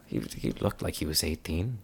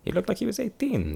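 First: Said in the usual way. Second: Very high, protesting repeat; high-pitched excuse. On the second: Acted. Traveller justifying giving a child a sword, high-pitched protest.

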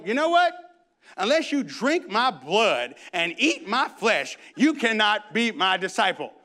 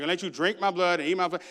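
First: Jesus voiced. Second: Quick, offhand retelling; a hint of a Dracula speech, rattled off fast. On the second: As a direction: toss the line off fast. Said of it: "I call it the Dracula speech".

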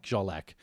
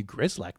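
First: "Zsolak" starting with a soft zh; "Zsolak" with no g or r, just zh; corrected pronunciation. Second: "Grzelak" with a hard English gr at the start; "Grzelak" anglicised, hard g and r; mistaken pronunciation. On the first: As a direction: say "Zsolak" the Polish friend's way, zh first. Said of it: "That's nothing like Zsolak". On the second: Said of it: "it's actually not pronounced like that". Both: Retold or imitated.

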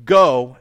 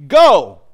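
First: Firm, loud call, pitched down without screaming; leader's go. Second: Loud, high sudden shout; commander's order. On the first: Preacher voices Jesus leading the way, firm go. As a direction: say it firmly as one who goes first. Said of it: "and he leads the way". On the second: Preacher imitates a commander sending troops off, shouted order. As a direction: bark it out as a military command. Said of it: "the kind of commander that says". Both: Acted.

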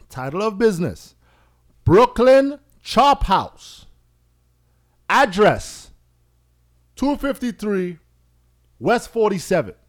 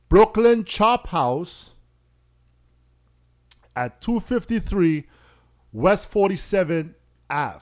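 First: High, loud and slow, each part set apart with long pauses; deliberate pause-filled dictation; spelled out with pauses. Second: Slow and deliberate. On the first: Shown as a demonstration. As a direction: read the address out like a form, pausing between fields. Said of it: "You hear the pause in". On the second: Retold or imitated. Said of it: "So understand what I did there".

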